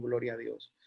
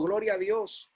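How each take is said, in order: First: Much lower and softer; murmured aside. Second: Said in the usual way. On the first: Real, not acted. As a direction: drop the refrain to a low murmur. Refrain repeated, dropped to murmur.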